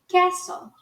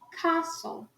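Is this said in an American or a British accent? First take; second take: American; British. First: American accent, with a vowel close to 'e'. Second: British accent, with a broad open 'a' vowel. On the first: "no inglês americano fica castle" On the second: "no sotaque britânico... fica castle"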